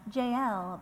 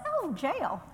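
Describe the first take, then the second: First: Jael said as two parts, "J L"; careful pronunciation. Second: Higher-pitched, playful southern lilt; southern accent. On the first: Teacher showing the likelier way to say the name, "J L" in two syllables. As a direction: pronounce "J L" like the two letter names. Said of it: "It's probably more like". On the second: Teacher mocking her own pronunciation of Jael, southern accent. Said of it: "my southern accent is like". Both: Shown as a demonstration.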